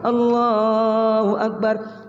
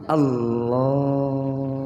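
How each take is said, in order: First: It is said loudly. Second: It is said softly, just audible.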